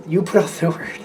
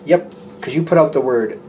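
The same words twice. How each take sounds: First: A laugh breaking into the phrase; giggling through the repeat. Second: Said in the usual way. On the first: Real, not acted. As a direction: repeat it and crack up before word. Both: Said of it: "I don't know why I'm laughing".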